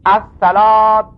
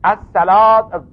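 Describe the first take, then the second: The two takes are said the same way.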